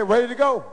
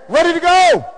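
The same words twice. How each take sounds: First: Said in the usual way. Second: High, loud imitated chant shout; sudden call-out. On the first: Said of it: "they say". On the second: Voice from the back rousing twenty people, loud chant. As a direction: holler it to rally a room. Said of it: "hear the voice saying".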